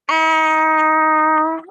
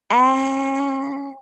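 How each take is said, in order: First: The vowel is said loudly. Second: The vowel is said softly. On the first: "now I'll say it with a louder pitch" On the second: "I'll say it softer"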